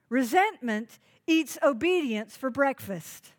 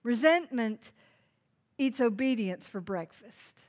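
First: "Resentment eats obedience for breakfast" said in one driving sweep, stress on "eats"; punchy preached line. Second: "Resentment" set apart, a pause, then "eats obedience for breakfast" dictated slowly so people can write it; slow dictation pace. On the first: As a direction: hit "eats" hard and keep it moving as a sermon punchline. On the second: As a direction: repeat it slowly for note-taking with a pause after "Resentment". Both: Shown as a demonstration. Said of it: "You ought to write that down".

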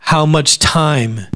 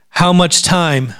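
First: Very slow, quieter, much stressed; slower, softer repeat. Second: Slow, pointed question; slow emphasis. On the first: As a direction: draw out How much time, gently. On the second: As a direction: lean on the word much, slowly. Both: Shown as a demonstration. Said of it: "oh, this is gonna be rough".

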